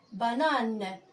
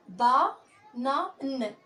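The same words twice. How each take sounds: First: Said in the usual way. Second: "Ba, na, n" as separate sounds with pauses between; "Ba, na, n" broken up for a beginning reader; syllable by syllable. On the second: Shown as a demonstration. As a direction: sound out "Ba, na, n" piece by piece. Teacher sounds out syllables for learners.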